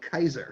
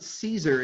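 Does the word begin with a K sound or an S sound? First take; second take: K sound; S sound. First: The word begins with a hard K sound. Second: The word begins with a soft S sound. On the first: The speaker calls it right. "You pronounce it like a hard C" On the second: The speaker calls it wrong. "there were no soft C's like there are in American English"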